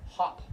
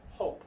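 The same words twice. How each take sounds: First: Hop with a short ah-like O. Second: Hope with a long oh vowel. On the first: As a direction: say hop with a quick, open ah vowel. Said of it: "that's the short O sound". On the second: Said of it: "that's the long O". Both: Shown as a demonstration.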